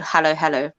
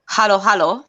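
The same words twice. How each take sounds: First: It is said in the speaker's ordinary accent. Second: It is said in an exaggerated posh English accent.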